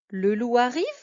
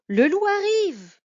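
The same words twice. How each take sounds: First: The voice rises at the end. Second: It is exclaimed with fear.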